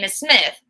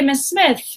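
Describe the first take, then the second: First: The tone is sharp and impolite. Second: The tone is soft and polite. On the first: The speaker calls it wrong. "that's not as polite" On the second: The speaker calls it right. "if you have a polite tone"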